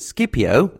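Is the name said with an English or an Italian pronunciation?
English. The name has an English-style pronunciation. "I've pronounced it Scipio, as I heard from Mike Duncan and other history podcasts"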